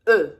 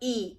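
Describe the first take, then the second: First: The letter is named with a French pronunciation. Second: The letter is named with an English pronunciation. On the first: "is said E in French" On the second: "the letter E in English"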